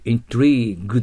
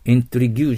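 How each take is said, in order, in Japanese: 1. 「intrigue」は、長い'ee'と硬い'g'で終わります。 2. 「intrigue」は、長く伸ばした'gyoo'の音で終わります。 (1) "イントリーグです" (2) "イントリギューじゃなくて"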